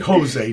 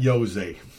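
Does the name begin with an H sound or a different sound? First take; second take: H sound; different sound. First: The name begins with an H sound. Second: The name begins with a non-H sound. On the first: The speaker calls it right. "You say Jose" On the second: The speaker calls it wrong. "not Jose"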